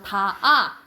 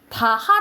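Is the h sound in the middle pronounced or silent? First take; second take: silent; pronounced. First: The h sound is dropped between the syllables. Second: The h sound is pronounced between the syllables. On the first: The speaker calls it right. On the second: The speaker calls it wrong.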